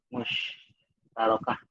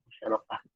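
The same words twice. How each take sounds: First: "musyarakah" said very slowly, syllable by syllable; slow careful repeat. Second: Said in the usual way. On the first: Shown as a demonstration. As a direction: stretch out "musyarakah" carefully, each syllable clear.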